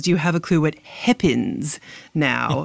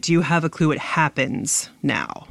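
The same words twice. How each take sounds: First: "happens" said as "heppens", short A raised to E. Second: Said in the usual way. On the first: Shown as a demonstration. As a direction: say "happens" with the vowel of "pen". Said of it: "change their short A to a short E". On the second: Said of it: "we would probably say it".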